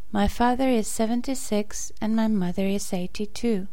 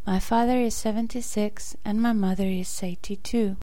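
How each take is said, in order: Both takes have the same delivery.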